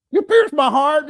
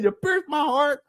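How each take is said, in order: First: High, loud mock woman's voice; mocking her. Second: High, slow mock woman's voice; mocking her. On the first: Quoting her accusation to the chat, in a high mock voice. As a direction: throw her line up high in a send-up. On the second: Repeating her accusation to the chat, slow and high in mockery. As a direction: drag her line out slowly, pitched high. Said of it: "She said".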